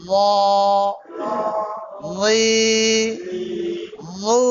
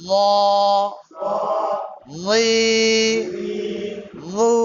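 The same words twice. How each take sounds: The two takes are said the same way.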